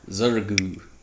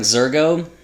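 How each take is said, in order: First: The name is said Portuguese-style, ending in 'oo'. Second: The name is read as it is spelled. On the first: "I prefer to think of it as the Portuguese pronunciation" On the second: "I know it looks like Zergo"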